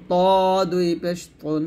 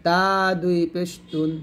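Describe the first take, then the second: First: তুন with a heavy, backed t; heavy Arabic to. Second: তা with a long open a; light Arabic ta. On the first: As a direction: say ত as a long rounded "to", as Arabic ط. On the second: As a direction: say তা and তুন with a light dental t, as Arabic ت. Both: Shown as a demonstration. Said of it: "এরকমভাবে পড়তে হবে".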